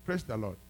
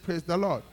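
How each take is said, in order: First: Said in the usual way. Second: "Praise the Lord" called louder and higher; preacher repeats "Praise the Lord" louder for the crowd. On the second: Shown as a demonstration. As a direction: demand a stronger response with "Praise the Lord". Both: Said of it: "I said".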